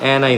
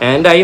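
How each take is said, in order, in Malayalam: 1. വേഗത്തിൽ പറയുമ്പോൾ d ശബ്ദം ഒഴിവാകുന്നു. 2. 'and' എന്നതിലെ d ശബ്ദം വ്യക്തമായി ഉച്ചരിക്കുന്നു.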